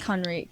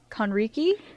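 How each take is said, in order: First: The name ends on a consonant sound. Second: The name ends with an added final vowel. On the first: This is the family's real pronunciation. The speaker calls it right. "But it's Conrick" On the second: This is how most people say the name. The speaker calls it wrong. "everyone everyone usually says it Conricky"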